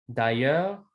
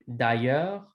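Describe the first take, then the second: No difference in how they are said.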